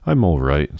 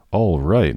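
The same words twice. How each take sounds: First: Protesting. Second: Incredulous echo, pitched up and louder; exclaiming. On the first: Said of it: "Sophie protested". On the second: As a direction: throw the words back in disbelief. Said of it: "Martha exclaimed". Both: A narrator's reading.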